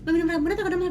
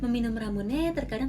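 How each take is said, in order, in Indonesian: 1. Frasa itu diucapkan cepat. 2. Frasa itu diucapkan pelan. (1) "aku masih kayak" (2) "harusnya kan bisa kayak"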